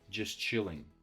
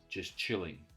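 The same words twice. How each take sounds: The two takes are said the same way.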